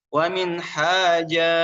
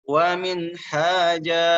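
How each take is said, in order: The two takes are said the same way.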